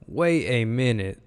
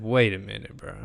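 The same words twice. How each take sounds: First: Slow, swooping double take; drawn-out disbelief. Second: Said in the usual way. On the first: Retold or imitated. Analyst reliving his first look at the play, slow disbelief. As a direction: stretch it out in retold disbelief.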